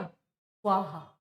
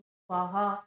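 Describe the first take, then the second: First: स्वाहा stretched slowly, each syllable spelled out; drawn-out svaha. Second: स्वाहा called out like at a home fire ritual; ritual offering call. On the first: Teacher slowly sounding out स्वाहा for students. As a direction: slowly draw out स्वाहा for the class. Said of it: "ये वही स्वाहा शब्द है". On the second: Teacher showing how families intone स्वाहा at yajna. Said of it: "स्वाहा ऐसे बोलते हैं". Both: Shown as a demonstration.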